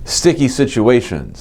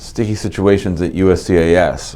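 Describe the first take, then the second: First: Slow, carefully stressed "Sticky situations", pitched higher; over-enunciate "Sticky situations" slowly; emphasized words. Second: Said in the usual way. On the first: Shown as a demonstration. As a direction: lean on "sticky" and draw it out. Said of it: "I'm emphasizing my words because of my braces". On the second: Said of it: "I'm emphasizing my words".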